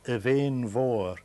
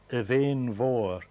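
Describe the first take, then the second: First: The name is said in a Gaelic way. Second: The name is said in a Gaelic way.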